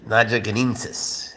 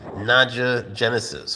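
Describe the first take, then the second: First: The second word has an extra n before the ending. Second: The second word ends like 'genesis', with no extra n. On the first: The speaker calls it right. "It's actually pronounced Naja genensis" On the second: The speaker calls it wrong. "Some people pronounce it Naja genesis, which is not quite right"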